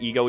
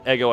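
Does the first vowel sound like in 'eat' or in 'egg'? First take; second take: eat; egg. First: The first vowel sounds like in 'eat'. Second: The first vowel sounds like in 'egg'. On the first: "I'm gonna keep calling it ego, even though I know I'm wrong" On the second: "if I call it ego, I'm gonna think of the waffle brand"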